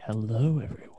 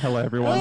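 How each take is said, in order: First: It is said in a sultry, creepy voice. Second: It is said in a plain, normal voice.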